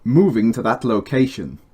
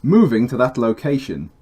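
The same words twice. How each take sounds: First: Slight Brummie accent on Moving to that location; lightly Brummie vowels; a bit Brummie. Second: Slight Brummie accent on Moving to that location; still Brummie. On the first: Voice line for the game with a slight Brummie accent. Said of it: "That sounded a bit brummy". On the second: Retake of the game voice line, still lightly Brummie. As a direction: Brummie vowels lingering. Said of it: "Still sounded brummy". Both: Real, not acted.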